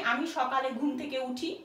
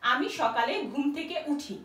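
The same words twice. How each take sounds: The two takes are said the same way.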